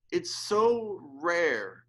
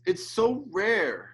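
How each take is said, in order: First: "so" drawn out, very slow and choked; slow tearful stress. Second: Choked up. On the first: Preacher repeating "so rare" slower, near tears. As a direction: stretch "so rare" out as the tears come. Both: Real, not acted. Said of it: "I'm almost in tears".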